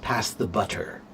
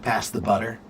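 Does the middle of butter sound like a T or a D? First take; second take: T; D. First: The middle sound is a clear T. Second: The middle sound is a quick D-like tap. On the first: This is careful, proper speech. "in proper English" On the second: This is relaxed, everyday speech. "But in common English, ... It sounds more like a D"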